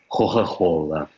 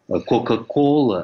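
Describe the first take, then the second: First: The k sounds between vowels are breathy h sounds. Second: The k sounds between vowels are hard stops. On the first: "тосканцы почему-то не умеют выговаривать твердо звук «к» между двумя гласными" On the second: "вместо «кока-кола»"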